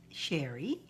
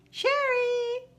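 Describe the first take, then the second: First: Said in the usual way. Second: Name sung out much higher; a long high call for a missing viewer. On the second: Real, not acted. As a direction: call her name up high like across a room. Calling out for Sherry.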